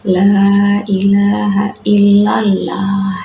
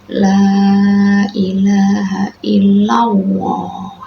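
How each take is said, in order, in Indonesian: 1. L dalam Allah dibaca tipis. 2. L dalam Allah terdengar seperti w. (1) "ini tidak boleh ya" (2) "seakan-akan itu pakai wawu ya"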